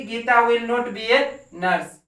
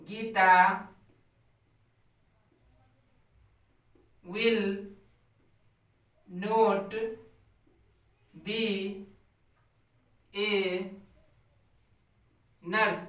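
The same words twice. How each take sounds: First: Said in the usual way. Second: Each word set apart by long pauses; slow word-by-word dictation. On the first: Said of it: "teacher repeats sentence". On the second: Shown as a demonstration. Teacher dictating to the class, word by word, slowly. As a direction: dictate it one word at a time for students to copy. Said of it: "teacher dictating word by word".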